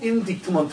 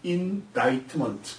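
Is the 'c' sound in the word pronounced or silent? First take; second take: pronounced; silent. First: A 'k' sound is pronounced in the middle. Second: No 'k' sound is pronounced in the middle. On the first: The speaker calls it wrong. "indictment가 아니고" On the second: The speaker calls it right. "C가 한국 문법식으로 얘기가 된다면 묵음이라 발음하지 않습니다"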